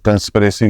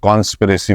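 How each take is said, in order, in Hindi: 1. पहले अक्षर में छोटा 'kun' स्वर है। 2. पहले अक्षर में खुला 'kon' स्वर है। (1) "कन और कौन का बड़ा मसला" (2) "हम लोग कंस्पिरेसी को कॉन्स्पिरेसी बोल देते हैं"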